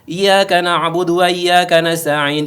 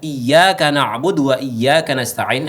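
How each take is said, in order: First: The y sound in iyyaka is single and unpressed. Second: The y sound in iyyaka is doubled and pressed. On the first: It can sound like the name of a sun god. The speaker calls it wrong. "ketika kita tidak menekan hurufnya pada ya itu" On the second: Only to you do we worship and ask help. The speaker calls it right. "dengan mentasydidkan huruf iya-nya"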